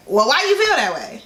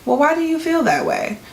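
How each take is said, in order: First: Pointed question with stress landing on you; defensive, accusing question. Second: Light, curious question, pitch lifting on why. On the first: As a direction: lean hard on "you" in "why do you feel that way". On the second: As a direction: ask "why do you feel that way" with open, genuine curiosity, stress on why. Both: Shown as a demonstration. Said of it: "your tone of voice and your inflection could mean something different".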